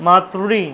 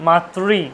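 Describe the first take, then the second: Both takes have the same delivery.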